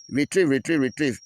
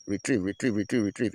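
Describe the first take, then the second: First: Loud, higher-pitched taunting call back; defiant reply. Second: Said in the usual way. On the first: Acted. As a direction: throw the retreat call back at them, loudly. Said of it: "we will also reply to them". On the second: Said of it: "you go hear them say".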